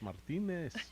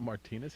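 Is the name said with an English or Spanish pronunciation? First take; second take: Spanish; English. First: The name is said with a Spanish pronunciation. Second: The name is said with an English pronunciation. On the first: The speaker calls it right. "it's Martinez" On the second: The speaker calls it wrong. "Your name's not Martinez"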